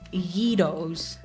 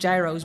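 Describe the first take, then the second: First: The word begins with a y sound. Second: The word does not begin with a y sound. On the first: The speaker calls it right. "G is the first sound in yeah" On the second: The speaker calls it wrong. "This is why gyros is not gyros"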